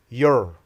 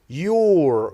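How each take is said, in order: First: The word has a short, reduced schwa vowel. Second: The word has a full, strong vowel.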